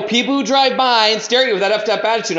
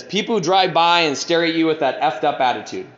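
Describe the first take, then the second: First: Higher, insistent repeat of a written line; emphatic repeat. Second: Said in the usual way. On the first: Retold or imitated. Repeating his inventory line to a baffled sponsor, insistent. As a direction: say it over, pitched up and insistent.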